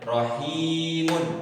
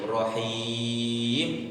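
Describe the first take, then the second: First: The word ends in -un with normal vowel length. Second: The ending drops and the vowel is held long. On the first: The word is read on without stopping. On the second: The reader stops on this word.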